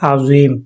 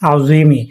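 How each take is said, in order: First: The word ends on the m sound. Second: The word ends with a short i vowel. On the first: This is the form used when stopping here. "আমরা যখন এখানে থামবো তখন এটা উচ্চারিত হবে আউজিম" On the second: This is the word's full form. "এটা শব্দটা মূলত আউজিমি"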